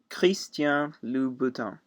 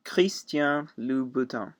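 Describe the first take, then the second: First: The name is said with a French pronunciation. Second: The name is said with a French pronunciation.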